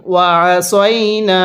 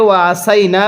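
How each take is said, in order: First: ওয়াসাইনা with a heavy emphatic সা, drawn out slowly; correct tajweed. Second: ওয়াসাইনা with a plain short সা, the common mistake; wrong reading. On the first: Teacher shows the correct reading. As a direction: stretch ওয়াসাইনা and give সা its full weight. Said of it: "সতিয়া জবর সই". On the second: Teacher shows students the wrong way to read. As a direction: say ওয়াসাইনা quickly, without the proper sad sound. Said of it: "পড়াটা সহি শুদ্ধ হবে না". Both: Shown as a demonstration.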